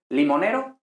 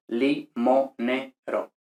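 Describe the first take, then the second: First: Said in the usual way. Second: Limonero in four separate beats, li, mo, ne, ro; syllable by syllable. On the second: Shown as a demonstration. Teacher giving the class a mnemonic for sonants, limonero syllable by syllable. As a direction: break limonero into slow, evenly spaced syllables.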